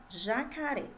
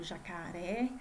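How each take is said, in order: First: JACARÉ said distinctly, syllable by syllable; sounded out. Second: Said in the usual way. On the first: Shown as a demonstration. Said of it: "Então, vamos lá". ("Jacaré" bem marcado, sílaba por sílaba) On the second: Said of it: "Temos aqui o jacaré".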